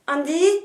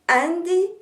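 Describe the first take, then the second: First: It is said with a French accent. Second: It is said with an American accent.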